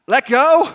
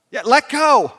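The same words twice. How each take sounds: First: High, loud "let go?" rising in disbelief; "let go?" thrown back as a startled question; incredulous question. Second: "let go" as a falling statement, high and loud; settled, projected "let go", dropping at the end; firm confirmation. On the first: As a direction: ask "let go?" as if you can't believe it. Man questions God's instruction. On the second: God confirms the instruction. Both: Acted.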